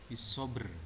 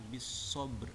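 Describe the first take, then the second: First: The final b is said with a full vowel. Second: The final b ends in a light bounce. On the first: The speaker calls it wrong. "Kadang orang membaca membacanya itu dengan bisobr. Salah" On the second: The speaker calls it right. "yang benar adalah bisobr"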